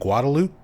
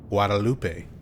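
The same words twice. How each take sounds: First: It is pronounced the local, Anglicized way. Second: It is pronounced the Spanish way, as spelled. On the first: The speaker is a local who was born there. "a local who's born and raised in Austin, they'll be like, "Oh, you mean Guadalupe?"" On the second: The speaker is not from the area. "if you are a Spanish speaker, you would probably want to pronounce it Guadalupe because that's how it's spelled"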